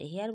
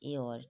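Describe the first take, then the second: First: The word begins with an 'h' sound. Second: The word begins with a vowel, no 'h'. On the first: The speaker calls it wrong. "হেয়ার বলছি না" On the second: The speaker calls it right. "কিন্তু কি বলছি এওর"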